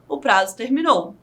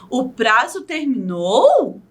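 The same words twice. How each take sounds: First: It is said with a statement intonation. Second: It is said with a questioning intonation. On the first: The speaker is stating that the deadline ended. "se fosse uma frase afirmativa" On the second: The speaker is asking whether the deadline ended. "eu estou perguntando, eu estou te interrogando"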